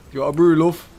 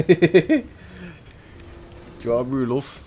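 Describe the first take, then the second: First: Much higher and louder mock mum, "brew" stretched; bigger Manchester mum. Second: Higher, louder mock mum offering tea; hammed-up northern mum fussing over a brew, "brew" leaned on; Manchester mum. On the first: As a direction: push the mum voice up hard, calling out the offer. Repeats mum offer, bigger. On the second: Voicing a caring Manchester mum.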